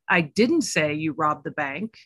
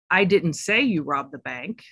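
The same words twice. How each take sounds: First: The stress is on the word didn't. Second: The stress is on the word say.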